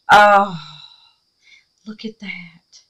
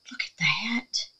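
First: A hushed look at that; awed whisper. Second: Hushed awe. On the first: Showing viewers her craft, whispering in awe. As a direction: breathe it out in wonder. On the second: Admiring craft piece, hushed awe. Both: Real, not acted.

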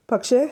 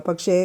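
First: പക്ഷേ asked with a high rising lilt; പക്ഷേ as an anxious rising question. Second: Said in the usual way. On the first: A narrator's reading. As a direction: push him to go on, worried. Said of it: "daughter asks anxiously". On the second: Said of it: "father trails off".

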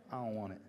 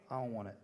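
The two takes are said the same way.

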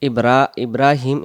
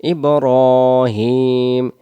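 First: ইব্রাহিম with an open রা; wrong ibrahim. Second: ইব্রাহিম with a light র, very slow; correct ibrohim. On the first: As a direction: say ইব্রা with a flat রা. (ভুল রা উচ্চারণ) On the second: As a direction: stretch ইব্রাহিম with rounded রো. (সঠিক ইব্রাহিম) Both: Shown as a demonstration. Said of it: "ইব্রাহিম যেন না হয়".

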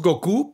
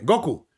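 First: Goku said go-KU, stressed on the U; stress on last syllable. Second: Goku as Spain says it, GO-ku; stress on first syllable. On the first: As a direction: show the Mexican go-KU for Goku. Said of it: "nosotros decimos Goku". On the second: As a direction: put the accent on the O of Goku. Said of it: "llevaría el acento en la O". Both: Shown as a demonstration.

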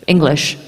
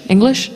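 First: Said in the usual way. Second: "English" as a higher, rising question; second-guess the word "English", voice lifting; puzzled self-check. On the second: Real, not acted. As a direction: query "English" with pitch climbing at the end. Questions own word choice aloud.

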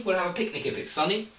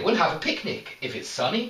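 First: We'll have a picnic if it's sunny rattled off in one quick breath; fast, no pause. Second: Said in the usual way. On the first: Shown as a demonstration. Teacher shows the sentence fast with no pause. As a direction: rush it through without stopping. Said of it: "We say it very, very fast together". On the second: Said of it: "we don't have so much of a pause here".

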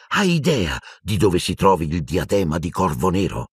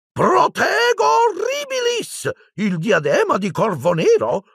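First: Said in the usual way. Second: Much higher, slow, put-on little professor voice; startled little professor, pitched way up; tiny old charms professor. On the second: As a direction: voice the tiny wizard high up in his register. Flitwick voiced by narrator.

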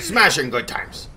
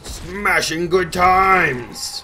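First: Brisker, less shouted mock war cry; short battle cry. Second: Loud, high, slow mock war cry; drawn-out battle cry. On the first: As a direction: toss off the playful cry quickly. Same battle cry, shorter take. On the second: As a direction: stretch it out in a big playful yell. Mock battle cry while smashing.

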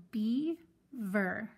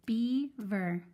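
First: Beaver drawn out slowly; teacher modeling beaver slowly; slowed, stretched. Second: Said in the usual way. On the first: Shown as a demonstration. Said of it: "So beaver". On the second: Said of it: "I've already split it for us".

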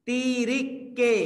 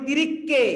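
First: তিরিককে stretched very slowly, syllable by syllable; slow teacher demo of তিরিককে; drawn-out word. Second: Said in the usual way. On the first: Shown as a demonstration. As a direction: spell out তিরিককে slowly for the class. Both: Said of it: "আমরা বলি তিন তিরিককে".

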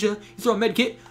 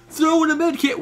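First: Said in the usual way. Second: Higher, louder yelled "throw in a med kit"; mock soldier call-out. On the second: Mocking the game's random call-outs, loud yell. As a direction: bark it like a game soldier. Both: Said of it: "Why are you yelling at?".

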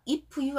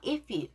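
First: "if you" with an added Korean vowel, "i-pu-yu"; wrong pronunciation. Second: "If you" linked, no vowel after the f; linked pronunciation. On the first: Teacher showing learners the mistake, "if you" as "i-pu-yu". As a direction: break "if you" into Korean syllables. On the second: Teacher correcting learners, "If you" smoothly linked. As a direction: run the f of "If" straight into "you". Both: Shown as a demonstration. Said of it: "if you 아니에요".

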